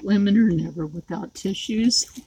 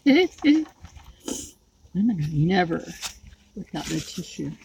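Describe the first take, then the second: First: Said in the usual way. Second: Laughing. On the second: Real, not acted. Repeats joke while laughing.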